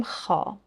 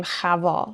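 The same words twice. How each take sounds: First: خا said as plain khā with no v; correct pronunciation. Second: خوا said as khvā with the vav sounded; wrong pronunciation. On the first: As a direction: say خا as khā, vav silent. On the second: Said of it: "نمیگیم". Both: Shown as a demonstration.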